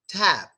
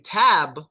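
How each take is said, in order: First: The lips close for b without releasing. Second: The final b is fully released with air. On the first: The speaker calls it right. "We say tab" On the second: The speaker calls it wrong. "since we don't say tab"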